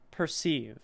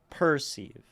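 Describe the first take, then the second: First: The stress is on the second syllable. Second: The stress is on the first syllable. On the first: The speaker calls it right. "It is an unstressed per, and then sieve is where we land and have more weight" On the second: The speaker calls it wrong. "It wouldn't sound right to go perceive"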